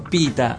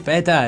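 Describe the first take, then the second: First: The first vowel sounds like 'ee'. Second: The first vowel sounds like 'eh'. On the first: The speaker calls it right. "Secondo me è Pita" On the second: The speaker calls it wrong. "detto così Peta è... non si può sentire"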